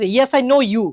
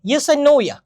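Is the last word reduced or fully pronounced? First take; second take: fully pronounced; reduced. First: The last word is full and stressed. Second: The last word is reduced and unstressed. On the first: The word is wrongly made the focus. The speaker calls it wrong. "Focused হয়ে যায়... robotic লাগবে" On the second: The word is unimportant. The speaker calls it right. "Shortcut ফর্মে use করলে হবে"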